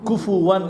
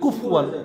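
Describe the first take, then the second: First: A short u vowel follows the f sound. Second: The f sound has no vowel after it. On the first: The speaker calls it right. "পড়তে হবে ফু" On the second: The speaker calls it wrong. "কুফ বললে কি ফা সুকুন হয়ে গেল"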